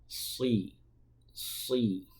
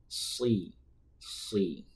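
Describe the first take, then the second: Both takes have the same delivery.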